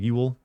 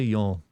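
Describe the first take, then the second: First: The word sounds like 'yool' with a rounded vowel. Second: The word sounds like 'yall' with an open vowel. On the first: "a different version of y'all. Like you'll" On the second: "I don't say y'all"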